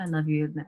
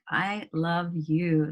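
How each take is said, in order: First: It is said flatly, without resonance. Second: It is said with a full, resonant voice. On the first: The words are only being recited. The speaker calls it wrong. "I'm not just saying the words" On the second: The feeling is truly transmitted to the partner. The speaker calls it right. "putting that resonance in your voice"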